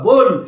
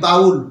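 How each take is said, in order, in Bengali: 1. স্বরটি 'oh' ধ্বনি। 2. স্বরটি 'ow' ধ্বনি। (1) "এটা সঠিক উচ্চারণ বোল" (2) "সঠিক উচ্চারণ বাউল নয়"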